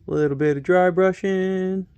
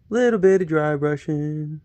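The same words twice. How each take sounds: First: A light hint of a TV painting instructor; playfully channel a gentle painting host; lightly done TV painter calm; Bob Ross voice. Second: Slow, lightly voiced TV painting instructor; a slow, easy hint of a TV painter; slow Bob Ross voice. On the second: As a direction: draw it out slowly like a gentle painting host. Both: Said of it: "Am I becoming a miniature painted Bob Ross?".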